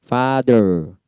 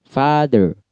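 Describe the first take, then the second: Both takes have the same delivery.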